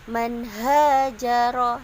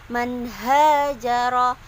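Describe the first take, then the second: No difference in how they are said.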